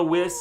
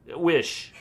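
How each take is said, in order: First: "wish" slipped into "wiss"; slip of the tongue. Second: Said in the usual way. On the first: Real, not acted. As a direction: say "wish" with an s sound at the end.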